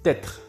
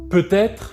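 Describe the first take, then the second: First: The first syllable is reduced, sounding like t'être. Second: Both syllables are fully pronounced.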